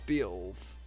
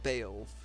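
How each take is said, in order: First: The name is said with a lower sound. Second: The name is said with a higher sound. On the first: This is how the speaker always took it. "like a lower Beowulf" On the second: This is the official pronunciation. "not Beowulf"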